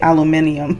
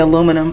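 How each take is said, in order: First: It is said with a British pronunciation. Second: It is said with an American pronunciation. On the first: "the Brits they say aluminium" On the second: "we here in the U S we say aluminum"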